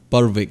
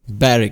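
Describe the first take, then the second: First: The w in the middle is sounded. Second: The w in the middle is silent. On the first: The speaker calls it wrong. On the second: The speaker calls it right.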